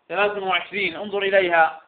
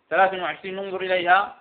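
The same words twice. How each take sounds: The two takes are said the same way.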